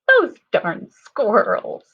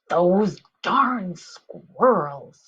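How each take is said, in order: First: It is said in a silly voice. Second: It is said in an annoyed voice. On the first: "Can you sound silly next?" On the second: "How about annoyed?"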